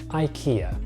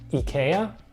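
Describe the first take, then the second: First: The name is pronounced the American English way. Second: The name is pronounced the Swedish way. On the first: "in the United States we actually pronounce it IKEA" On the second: "technically in Swedish it's pronounced IKEA, just like Zlatan would"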